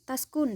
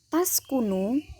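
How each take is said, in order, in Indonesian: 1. Kata ini berakhir dengan konsonan. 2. Kata ini berakhir dengan vokal.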